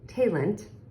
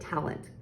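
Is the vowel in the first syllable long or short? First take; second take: long; short. First: The first vowel is a long A. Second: The first vowel is a short A. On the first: "If it went with the second syllable, it would say" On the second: "it's closing in this syllable, making that A short"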